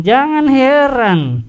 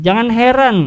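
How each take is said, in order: First: Slow emphatic repeat of "Jangan heran", higher and louder; stressed repeat. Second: Said in the usual way. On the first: Shown as a demonstration. Preacher warning the congregation, slow emphatic "Jangan heran".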